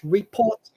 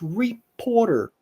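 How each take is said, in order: First: It is said in a British accent. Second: It is said in an American accent. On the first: "In British English" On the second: "In American English"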